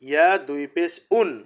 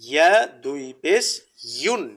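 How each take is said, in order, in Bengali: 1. শেষ অক্ষরটি সাধারণ 'un', এতে কোনো 'y' নেই। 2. শেষ অক্ষরটি 'y' দিয়ে শুরু হয়, 'yun' এর মতো। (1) "এইভাবে উচ্চারণ করলে কিন্তু দুটা হরফের উচ্চারণ এক হয়ে গেল" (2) "ইউন হবে, উন হবে না"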